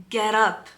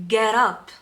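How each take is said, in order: The two takes are said the same way.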